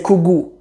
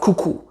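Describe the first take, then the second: First: The second consonant is a g sound. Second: The second consonant is a k sound. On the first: The speaker calls it right. "The second k turns into a g" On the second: The speaker calls it wrong. "Somali doesn't say kuku. It's a bit harder to say"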